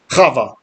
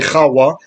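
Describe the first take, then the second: First: The middle consonant is a V sound. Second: The middle consonant is a W sound. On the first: This is the usual modern pronunciation of the name. The speaker calls it wrong. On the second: This is the original ancient pronunciation of the name. The speaker calls it right. "It used to be a W in ancient times"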